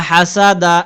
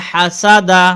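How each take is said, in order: No difference in how they are said.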